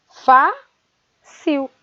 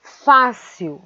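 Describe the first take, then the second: First: "Fácil" split into a high FÁ, pause, CIL; syllable by syllable. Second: Said in the usual way. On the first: Shown as a demonstration. Teacher dividing the word for pupils, syllable by syllable. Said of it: "A sílaba fá é a sílaba tônica". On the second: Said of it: "Depois vem a palavra fácil".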